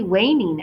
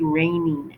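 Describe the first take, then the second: First: The first sound is a W-like glide. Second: The first sound is a clear R. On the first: "it comes out something like" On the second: "as opposed to"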